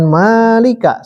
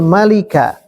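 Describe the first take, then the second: First: The first vowel is long. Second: The first vowel is short. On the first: It means the owner. The speaker calls it wrong. "Jangan malika, salah ya" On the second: It means the king. The speaker calls it right. "Al-malikun kalau pendek raja"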